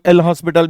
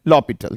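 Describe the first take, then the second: First: The name is said with an s sound. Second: The name is said without an s sound. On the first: The speaker calls it wrong. "जिसे काफी सारे लोग एल हॉस्पिटल भी बोलते हैं" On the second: The speaker calls it right. "It should be pronounced as लॉपिटल"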